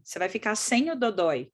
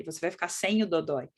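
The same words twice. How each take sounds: First: Weight placed on "sem"; demonstrated phrasing with "sem" brought out; stress on SEM. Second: Lower, settled phrase with "sem" brought out; corrected wording, "sem" weighted and "dodói" falling; stress on SEM. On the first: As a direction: lean on "sem", holding it a moment. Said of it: "você usa a palavra sem". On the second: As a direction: state it low, leaning on "sem". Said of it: "Ao invés de falar". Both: Shown as a demonstration.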